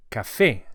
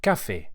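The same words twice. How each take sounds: First: "café" with the last syllable "fé" louder; stress on fé. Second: "café" stressed on the first syllable "ca", English style; wrong stress on ca. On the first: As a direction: lean on the final "fé" of "café". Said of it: "So it's". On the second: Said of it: "and not". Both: Shown as a demonstration.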